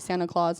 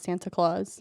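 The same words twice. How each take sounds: First: The T in Santa is dropped. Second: The T in Santa is clearly pronounced. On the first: "You say Santa Claus"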